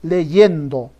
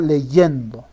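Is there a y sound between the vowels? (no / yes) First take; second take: yes; yes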